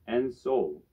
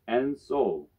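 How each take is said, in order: No difference in how they are said.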